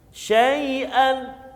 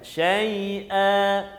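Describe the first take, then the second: First: The word ends with an n sound. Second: The word ends with a lengthened a vowel. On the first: The reading continues without stopping. "Sepatutnya syai'an" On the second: The reader stops on this word. "Bila kita waqaf, maka kita akan baca dengan syai'a"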